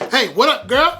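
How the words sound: It is said loudly and brashly.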